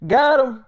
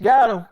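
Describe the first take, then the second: First: Got him said higher and louder, with the stress on got; hammed-up angry repeat. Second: Said in the usual way. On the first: Repeats the accusation for effect.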